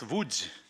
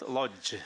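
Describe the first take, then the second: First: The letters are given their native Polish sounds. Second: The letters are read as English spelling suggests. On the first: The speaker calls it right. "it's Łódź" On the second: The speaker calls it wrong. "it's not Lodz"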